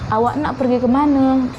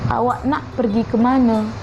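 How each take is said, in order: Both takes have the same delivery.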